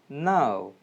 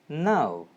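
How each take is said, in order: Both takes have the same delivery.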